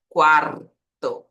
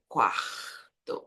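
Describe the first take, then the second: First: Quarto slow, with a long trilled R; vibrating R. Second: Quarto softer, with throaty R; Portuguese R. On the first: Teacher correcting to the Spanish sound, vibrating R. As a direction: drag out quarto, rolling the R. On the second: Teacher showing what it is not, throaty R. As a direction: let the R of quarto rasp, untrilled. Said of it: "Não é quarto". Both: Shown as a demonstration.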